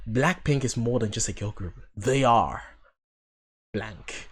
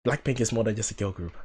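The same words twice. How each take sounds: First: Movie trailer voice. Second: Hushed, dramatic trailer narrator; movie trailer voice. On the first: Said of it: "that sounded like a trailer". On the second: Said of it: "That sounded like a movie trailer". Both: Pretend.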